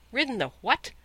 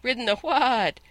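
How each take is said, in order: First: Scornful, higher-pitched disbelief; incredulous disdain, pitched up on the question; contemptuous retort. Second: High, loud horsey whinny on WHAT; angry talking horse, neighing the words; neighing retort. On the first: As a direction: throw it back with extreme contempt. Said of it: "with extreme contempt". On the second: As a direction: let "what" break into an indignant neigh. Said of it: "came out as a sort of a neigh". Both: A narrator's reading.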